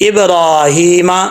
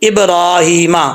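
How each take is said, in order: Both takes have the same delivery.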